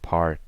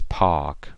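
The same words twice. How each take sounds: First: It is said with the R sound. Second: It is said without the R sound.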